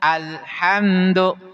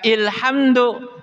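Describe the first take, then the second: First: The word begins with an a vowel. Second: The word begins with an i vowel. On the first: The speaker calls it right. "hamzah wasol dibaca fa fathah ketika bertemu dengan lam ta'rif" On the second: The speaker calls it wrong. "Jangan dibaca ilhamdu"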